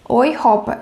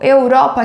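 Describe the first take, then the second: First: The first syllable is pronounced like 'oi'. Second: The first syllable is pronounced like 'eu'. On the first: The speaker calls it right. "ele vai ficar com som de OI" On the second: The speaker calls it wrong. "você não vai falar eu, Europa, que nem no português"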